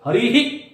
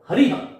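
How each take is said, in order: First: The final h is followed by a faint echoed i. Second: The word ends in a bare h sound. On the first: The speaker calls it right. "ये ही, लेकिन ही भी नहीं होगा, हरि ही" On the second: The speaker calls it wrong. "ये हरिह नहीं है मित्रों"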